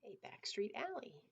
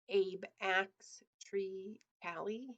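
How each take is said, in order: First: It is said fast, running together. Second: It is said slowly, word by word.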